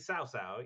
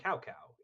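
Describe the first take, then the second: First: Each syllable begins with an S sound. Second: Each syllable begins with a K sound. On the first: The speaker calls it right. "it's supposed to be Sao Sao" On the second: The speaker calls it wrong. "they mispronounce all the names"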